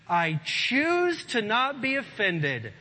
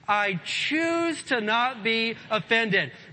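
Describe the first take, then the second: First: It is said plainly, without strong conviction. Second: It is said forcefully, with strong conviction. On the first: "say that with me" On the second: "Now say it like you mean it"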